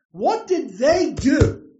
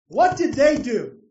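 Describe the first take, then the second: First: "What did they do?" slow, loud, stress on "What", rising; slow probing question. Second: "What did they do?" louder, stress on "What", falling firmly; firm repeated question. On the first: Repeated rhetorical question. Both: Real, not acted.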